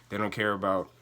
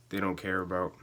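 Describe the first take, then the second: No difference in how they are said.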